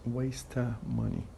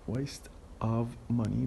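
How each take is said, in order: First: The V sound of 'of' is dropped. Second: The V sound of 'of' is pronounced.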